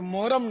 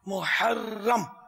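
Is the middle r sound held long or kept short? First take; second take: short; long. First: The word has a single, short r sound. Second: The word has a held, doubled r sound. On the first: The speaker calls it wrong. "ये मोहरम नहीं है" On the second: The speaker calls it right.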